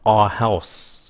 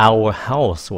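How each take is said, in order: First: OUR as "ar" before house; reduced OUR. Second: OUR as "ow-er" before house; slow "ow-er house" for OUR house; full OUR. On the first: Teacher contrasts two ways, OUR shortened to "ar". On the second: Teacher contrasts two ways, full "ow-er" OUR. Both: Shown as a demonstration. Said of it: "hoặc là".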